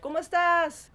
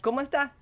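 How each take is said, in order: First: The final s sound is clearly pronounced. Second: The final s sound is dropped. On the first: "I learned Spanish in Mexico, so you're like" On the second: "And then you go to Puerto Rico, they're like"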